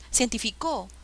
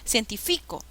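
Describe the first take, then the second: First: The stress is on the fourth syllable. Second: The stress is on the third syllable.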